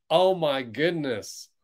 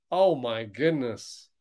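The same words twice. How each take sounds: The two takes are said the same way.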